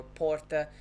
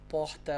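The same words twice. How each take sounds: First: Second porta with a tapped r; porta, r made with the tongue tip; São Paulo r. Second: First porta as "pohta", r turned to h; porta, h sound before the t; Rio r. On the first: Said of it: "either one of them". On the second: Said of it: "don't know which one to use". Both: Shown as a demonstration.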